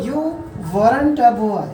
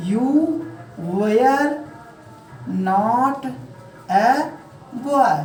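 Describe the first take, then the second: First: British-style demo, louder, "weren't a" linked; British-style "weren't a" as wur-run-ta. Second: Indian-style English, one word at a time; "were" as way-yar, long pauses between words. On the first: Teacher models for students, British-style contraction. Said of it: "British style में कैसे बोलेंगे". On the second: Teacher dictates to students, Indian-style demo. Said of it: "ये तो रही हमारी Indian style की". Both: Shown as a demonstration.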